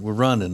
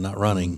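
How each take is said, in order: First: The ending is said without the g sound. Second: The ending is said with the g sound. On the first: This is how we say it. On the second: This is how others say it.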